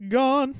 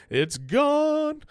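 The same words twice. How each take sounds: First: High, bright burst of "gone"; "gone" flung up high and loud, message already sent; excited exclaim. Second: "It's gone" held up even higher; excited repeat. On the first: To listeners, marvelling the text is sent, in a high excited exclaim. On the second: To listeners, stressing there's no undo, in a high stretched call. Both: Real, not acted.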